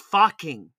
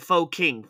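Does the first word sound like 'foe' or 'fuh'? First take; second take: fuh; foe. First: The first word has a short 'uh' vowel. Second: The first word has a long 'oh' vowel. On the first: The speaker calls it right. "Nope. It's fucking" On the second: The speaker calls it wrong. "I always called it Pho King"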